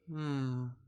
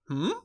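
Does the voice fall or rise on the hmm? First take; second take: fall; rise. First: The pitch goes down through the sound. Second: The pitch goes up through the sound. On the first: The listener feels sad with the speaker. "hear how my voice kind of went down there? That that descending tone communicates sadness" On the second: The listener is excited. "An ascending tone going up would communicate excitement"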